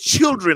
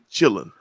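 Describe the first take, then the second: First: The word sounds like children, with both syllables clear. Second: The word sounds like chilling, with no r. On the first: The speaker is from California. "And then you get to California" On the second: The speaker is from Texas or nearby states. "Texas, Louisiana, Arkansas, Oklahoma, parts of Kansas. We say chilling"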